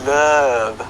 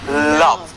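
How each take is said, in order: First: The vowel is not a short open 'ah'. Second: The vowel is a short open 'ah'. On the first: The speaker calls it wrong. "We don't say love" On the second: The speaker calls it right. "we say love. So the sound is ah"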